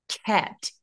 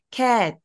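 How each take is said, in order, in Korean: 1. 처음 k 소리는 강하고 세게 납니다. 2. 처음 k 소리는 평범하고 가볍습니다. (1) "더 과하게 한번 해볼게요. 앞에 윽이 있다고 생각하고" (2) "그냥 cat"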